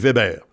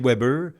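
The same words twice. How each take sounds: First: Weber is pronounced the German way. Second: Weber is pronounced the English way. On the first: The player comes from Switzerland. "l'autre qui vient de Suisse" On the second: The player comes from British Columbia. "de la Colombie-Britannique"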